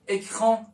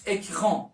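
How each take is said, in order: Both takes have the same delivery.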